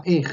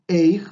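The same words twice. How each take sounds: First: "ej" said short, the middle i swallowed; teacher models everyday Israeli "ej" without the glide; ej, i dropped. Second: "eij" said with a full ei glide; teacher shows "eij", the textbook spelling, with its glide. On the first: Teacher showing how Israelis really say it, short ej. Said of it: "sino que se pronuncia ej". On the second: Teacher contrasting spelled and spoken form, careful eij. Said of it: "no se dice". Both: Shown as a demonstration.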